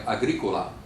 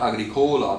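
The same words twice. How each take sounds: First: "Agricola" stressed on the third syllable from the end, a-GRI-co-la; correct accent placement. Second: "Agricola" stressed on a long next-to-last syllable, a-gri-COH-la; wrong accent placement. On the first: Giving students the example, "Agricola" stressed on GRI. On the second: Showing students the mistake, "Agricola" stressed on COH. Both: Shown as a demonstration. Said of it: "it's not Agricola".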